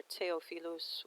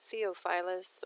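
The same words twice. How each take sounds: First: Theophilus in a foreign-style reading; alternative pronunciation. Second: Theophilus in an English-style reading; first pronunciation variant. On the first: Offering viewers another regional variant, foreign-style pronunciation of Theophilus. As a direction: say Theophilus as it might sound abroad. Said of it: "wherever you are in the world". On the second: Naming a moon crater for viewers, English-style pronunciation of Theophilus. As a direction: say Theophilus the anglicized way. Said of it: "depending on how you pronounce it". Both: Shown as a demonstration.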